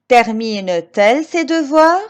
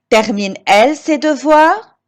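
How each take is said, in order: First: A t sound links the verb and 'elle'. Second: The verb runs straight into 'elle' with no t. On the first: The speaker calls it right. "je dis" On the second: The speaker calls it wrong. "Je ne peux pas dire"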